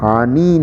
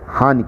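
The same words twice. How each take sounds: First: The final vowel is long. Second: The final vowel is short. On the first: The speaker calls it wrong. "हानि नहीं कहते हैं" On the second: The speaker calls it right. "नौ में छोटी की मात्रा, उसी तरह उसका उच्चारण भी होता है, हानि कहते हैं"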